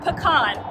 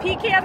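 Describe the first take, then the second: First: It is said the Texan, local way. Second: It is said the northern way.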